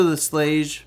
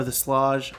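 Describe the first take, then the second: First: "Slage" with a long A, like "slayzh"; unsure pronunciation, long A. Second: "Slage" with a broad A, like "slahzh"; unsure pronunciation, broad A. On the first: Host guessing a lock brand's name, "Slage" said as "slayzh". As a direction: say "Slage" to rhyme with "beige". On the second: Host offering another guess at the brand, "Slage" said as "slahzh". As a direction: say "Slage" to rhyme with "mirage". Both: Shown as a demonstration. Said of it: "never heard it said out loud".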